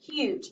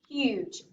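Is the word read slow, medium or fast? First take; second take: fast; medium. First: The word is read very fast. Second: The word is read somewhat faster.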